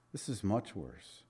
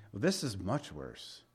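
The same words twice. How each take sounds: First: Quiet grave repeat; hushed, grave. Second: Quiet emphasis. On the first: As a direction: let it sink in softly. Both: Real, not acted. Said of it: "repeated for emphasis".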